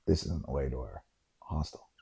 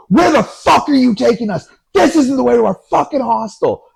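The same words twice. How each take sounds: First: Very low, hushed voice; quiet observation. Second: High, loud, furious outburst; yelling. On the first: Friend quietly flags the wrong turn to his companions, hushed. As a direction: say it under your breath, much lower. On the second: Friend yells at the cab driver about the wrong route. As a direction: explode at the driver, imitating an angry friend. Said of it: "Keeg just starts yelling at this guy". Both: Retold or imitated.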